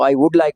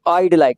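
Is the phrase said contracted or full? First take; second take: full; contracted. First: Would is said as a full separate word. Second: Would is shortened and joined onto I. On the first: "जब खोलते हैं" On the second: "जब हम इसको मुख्तसर करते हैं"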